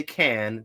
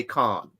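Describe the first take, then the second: First: "can" with a flat American A as in cat. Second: "can" with a long open British A, like "con". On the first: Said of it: "in one you say can". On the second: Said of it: "the other you say con". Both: Shown as a demonstration.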